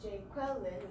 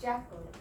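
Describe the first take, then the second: First: It has three syllables and two stresses. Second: It has two syllables, stressed at the front. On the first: "which has three syllables and two stresses" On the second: "two syllables and just one stress at the front"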